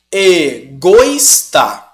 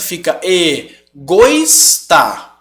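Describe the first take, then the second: First: Egoísta very slowly and louder, oi merged. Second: Egoísta drawn out slowly with oi merged, e-GOIS-ta; wrong diphthong. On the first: Teacher drawing the word out to show the merged vowels. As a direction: say Egoísta very slow and firm. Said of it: "O som do O iria sobressair". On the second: Teacher demonstrating the error without the accent. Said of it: "Se eu não ponho esse acento". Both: Shown as a demonstration.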